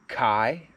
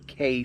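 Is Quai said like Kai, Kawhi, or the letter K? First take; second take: Kai; letter K. First: The word is said like 'Kai'. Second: The word is said like the letter K. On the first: "I've heard it called Kai" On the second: "I've heard it called the K fifty-four"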